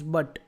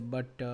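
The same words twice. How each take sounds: First: The word is said short and crisp. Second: The word is drawn out and lengthened. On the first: The speaker calls it right. "The word is but" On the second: The speaker calls it wrong. "but people say but. ... That is called stretching"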